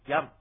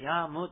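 First: The final m is only a lip closure. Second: The final m is a full 'mu' syllable. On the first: The speaker calls it right. "口を閉じるだけの発音なので" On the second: The speaker calls it wrong. "ヤームってこう、はっきり言うんでなく"

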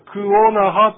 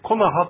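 First: The two parts ku and onaha are kept separate. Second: The two parts merge into one word, konaha. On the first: "クオナハというのが" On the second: "サルバ流域ではくっついてコナハとなります"

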